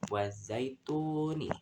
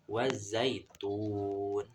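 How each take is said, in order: First: The word ends with an added vowel. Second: The word ends on a bare consonant. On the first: The speaker calls it wrong. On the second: The speaker calls it right. "jadi dibaca"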